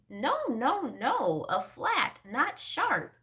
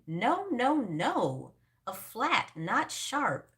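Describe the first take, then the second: First: It is said in a squeaky voice. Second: It is said in a normal voice.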